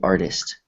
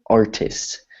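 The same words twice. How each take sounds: First: The t sounds soft, almost like a D. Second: The t is a sharp, emphasized T. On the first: The speaker calls it right. "You say artist. ... So it almost sounds like a D" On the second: The speaker calls it wrong. "You don't say artist"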